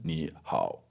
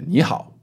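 First: Both syllables carry a low dipping third tone. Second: The first syllable rises, the second dips low. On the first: The speaker calls it wrong. "you can't have two third tones. ... People don't do that" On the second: The speaker calls it right. "Second tone, third tone"

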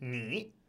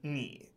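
First: It has a rising tone. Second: It has a low dipping tone. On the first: "because of this tone sandy rule" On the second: "你 by itself is third tone"

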